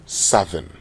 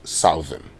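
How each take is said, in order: First: "southern" with a short "u" as in "sudden", SUTH-ern; correct pronunciation. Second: "Southern" said with the "ow" of "south", SOW-thern; wrong pronunciation. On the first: Radio host teaching listeners the right way: SUTH-ern. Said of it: "It is southern". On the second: Radio host showing listeners the wrong way: SOW-thern. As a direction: say "Southern" like "south" plus "-ern", the mistaken way. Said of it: "It is not pronounced Southern". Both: Shown as a demonstration.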